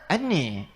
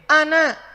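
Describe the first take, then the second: First: The final vowel is an 'e' sound. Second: The final vowel is an open 'a' sound.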